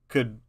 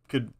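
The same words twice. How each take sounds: No difference in how they are said.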